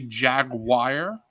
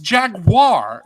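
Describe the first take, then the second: First: The word is said without its middle vowel. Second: The word is said with its middle vowel. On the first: The speaker calls it wrong. "they say Jaguar, and I'm like, that's no. Where's the I, bro?" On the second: The speaker calls it right. "It's Jaguar"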